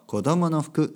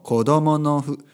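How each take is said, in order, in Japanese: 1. このフレーズは速く言われています。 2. このフレーズはゆっくり言われています。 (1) "でも早く言うと" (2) "ゆっくり言うと"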